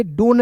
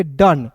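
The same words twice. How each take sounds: First: डोन with a long 'o' vowel; wrong pronunciation. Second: डन with a short 'uh' vowel; short, central vowel in डन; correct pronunciation. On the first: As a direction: say डोन to rhyme with English 'bone'. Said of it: "डोन नहीं पढ़ेंगे". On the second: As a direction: say डन to rhyme with English 'sun'. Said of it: "इसे पढ़ेंगे डन". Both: Shown as a demonstration.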